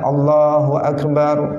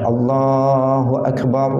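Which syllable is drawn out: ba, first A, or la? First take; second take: ba; la. First: The ba syllable of Akbar is lengthened. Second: The la syllable of Allah is lengthened. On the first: It says God is a big drum. The speaker calls it wrong. "baknya dipanjangkan" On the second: It says God is the greatest. The speaker calls it right. "yang dipanjangkan itu ya lam pada lafzul jalalah"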